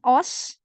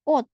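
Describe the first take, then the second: First: The word ends with an s sound. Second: The word ends with a t sound. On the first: The speaker calls it wrong. "Bukan os" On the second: The speaker calls it right. "di sini dia dibaca T"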